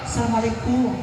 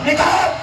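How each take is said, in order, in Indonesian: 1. Salamnya diucapkan dengan suara pelan. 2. Salamnya diucapkan dengan suara keras.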